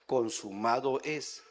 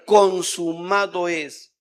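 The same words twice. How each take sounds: First: Slow, soft, hushed "consumado es" with weight on "consumado"; solemn translation. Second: Slow, loud "Consumado es" with weight on "Consumado"; proclaimed words. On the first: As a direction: let "consumado es" fall quietly and slowly. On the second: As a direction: ring out "Consumado es" with a falling close. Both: Shown as a demonstration. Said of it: "Que traducido es".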